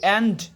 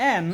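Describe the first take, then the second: First: The final d sound is clearly pronounced. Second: The final d sound is left off. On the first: The speaker calls it wrong. "আমরা কিন্তু সবাই কি করি এন্ড বলি, it's not এন্ড।" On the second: The speaker calls it right. "এই ডিটা শেষের word এবং তার আগে এন আছে, এই জন্য আমরা ডির উচ্চারণটা করব না।"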